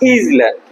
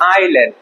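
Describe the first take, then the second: First: A z sound is heard before the l. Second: No s sound is heard before the l. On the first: The speaker calls it wrong. "অনেকে এটাকে উচ্চারণ করে কি" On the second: The speaker calls it right. "এখানে দেখো এই অ্যাসটা অনুচ্চারিত থাকবে"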